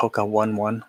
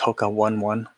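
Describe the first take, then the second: First: One One is said like the number one. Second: One One is said like the number one.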